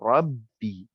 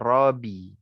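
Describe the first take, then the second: First: The B sound is held long and doubled. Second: The B sound is short and single. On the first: The speaker calls it right. "dibaca dengan tasydid" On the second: The speaker calls it wrong.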